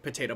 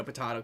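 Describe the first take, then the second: First: "potato" with a long ay, puh-TAY-toe; "ay" pronunciation. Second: "potato" with a broad ah, puh-TAH-toe; "ah" pronunciation. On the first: Explaining two ways of saying a word, "ay" pronunciation. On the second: Explaining two ways of saying a word, "ah" pronunciation. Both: Shown as a demonstration. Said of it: "just in two different ways".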